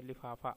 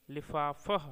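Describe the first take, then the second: First: लिफाफा in everyday Hindi, with a long final आ; Hindi pronunciation. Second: लिफाफह said the Persian way, ending in a final ह, slightly louder; लिफाफह pronounced as in Persian, with the final ह; Persian pronunciation. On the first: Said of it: "Hindi में". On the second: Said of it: "फारसी में". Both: Shown as a demonstration.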